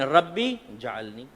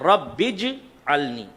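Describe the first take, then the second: First: The j sound starts a separate next word. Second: The j sound is joined onto rabbi. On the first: The speaker calls it wrong. "रब्बी जालनी गलत है" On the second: The speaker calls it right. "सही लफ्ज़ है रब्बिज अलनी"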